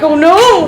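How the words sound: It is said in a relaxed, calm way.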